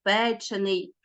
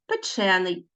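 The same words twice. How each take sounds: First: Печений stressed on the first syllable, ПЕ; stress on the root. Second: Печений stressed on the second syllable, ЧЕ; shifted stress. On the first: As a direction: say печений as ПЕ-чений. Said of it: "в дієприкметниках наголос залишається". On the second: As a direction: say печений as пе-ЧЕ-ний. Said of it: "наголос". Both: Shown as a demonstration.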